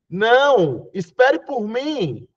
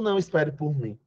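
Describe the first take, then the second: First: There is a pause after the word não. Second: There is no pause after the word não. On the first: The listener is asked to wait and go together. "E essa vírgula vai marcar um não" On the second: The listener is told not to wait. "É diferente do"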